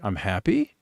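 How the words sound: It is said with a questioning tone. The speaker is asking rather than stating. "it's a bit of an inquisitive thing"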